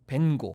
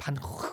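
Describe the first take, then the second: First: The name is said with an English pronunciation. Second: The name is said with a Dutch pronunciation. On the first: "영어로는 벤고" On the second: "네덜란드 원어로는요 반고 이런 거에 가깝다고 그래요"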